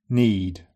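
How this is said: The ee vowel is a steady pure vowel. "followed by GB"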